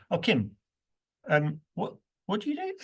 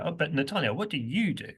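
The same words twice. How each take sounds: First: Chatty question to Kim, stressing do. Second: You stressed, falling; what do you do, with the weight on you. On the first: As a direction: do jumps very high, rising. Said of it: "I've already said to Kim". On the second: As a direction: turn to Natalia, leaning on you. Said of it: "I move to Natalia". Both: Shown as a demonstration.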